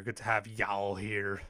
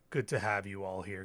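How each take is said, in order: First: Slow Nashville accent drawl on y'all. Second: Said in the usual way. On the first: Shown as a demonstration. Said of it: "little Nashville accent for my". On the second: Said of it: "Pick up a little, little Nashville accent".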